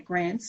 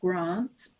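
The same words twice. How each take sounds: First: The word is said in a Queensland accent. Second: The word is said in a non-Queensland accent. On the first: This is how the speaker normally says it. "I'm from Queensland, I say grants" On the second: This is how the speaker does not say it. "not grants"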